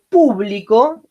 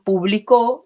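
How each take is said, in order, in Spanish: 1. La tónica está en la primera sílaba. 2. La tónica está en la última sílaba. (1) "nuestra vocal tónica es la U y por lo tanto es una palabra esdrújula" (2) "en la O y por lo tanto va a ser aguda"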